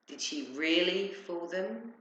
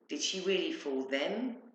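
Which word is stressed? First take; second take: really; them. First: The stress falls on the word really. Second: The stress falls on the word them. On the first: It questions whether they were only pretending. "Or were they just pretending to be fooled?" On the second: It questions whether such clever people were deceived. "Because they seemed very intelligent and not easily fooled"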